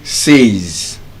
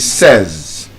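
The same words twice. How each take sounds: First: The vowel sounds like the word 'say'. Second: The vowel is short, like 'sez'. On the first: The speaker calls it wrong. "We would say says" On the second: The speaker calls it right. "the correct pronunciation should be says"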